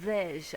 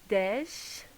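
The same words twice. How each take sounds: First: The opening d sound is lazy and slurred. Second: The opening d sound is clear and crisp.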